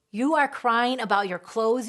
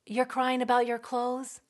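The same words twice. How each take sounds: First: Loud, stress on are, exasperated; scolding. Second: Incredulous rising question; guilt-tripping. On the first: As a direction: hit "are" as a reproach. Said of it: "they're scolding that feeling". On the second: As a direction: make the child feel guilty. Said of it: "make them feel guilty". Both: Retold or imitated.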